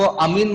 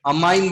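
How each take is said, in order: First: अमीन pronounced "a-MEEN"; wrong pronunciation "ameen". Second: अमाइन pronounced "a-MINE", rhyming with "line"; preferred pronunciation "amine". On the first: Teacher warning students off a confusing form, अमीन said with "ee". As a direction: say अमीन with a long "ee" in the second syllable. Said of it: "अमीन मत बोलना". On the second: Teacher asking students to copy his form, अमाइन said with "eye". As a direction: say अमाइन with an "eye" sound in the second syllable. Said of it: "अमाइन बोलना, ताकि मैं confuse ना हो". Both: Shown as a demonstration.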